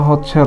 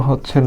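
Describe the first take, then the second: No difference in how they are said.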